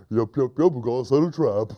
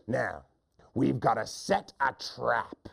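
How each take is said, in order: First: Goofy yes-man echo; silly hunter. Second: Slow, softer scheming hunter; mean hunter. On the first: Silly hunter copying the trap plan, goofy eager voice. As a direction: parrot it eagerly and dimly. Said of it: "He repeats everything his friend says". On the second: Hunter instructing his silly friend, slow mean voice. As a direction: lay out the plan slowly. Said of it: "The first hunter says". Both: Acted.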